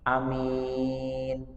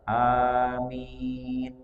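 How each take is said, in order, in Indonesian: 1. Vokal pertama dibaca pendek. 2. Vokal pertama punya panjang yang biasa. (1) "dipendekkan hamzahnya" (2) "dengan bacaan yang biasa"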